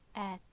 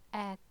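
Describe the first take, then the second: No difference in how they are said.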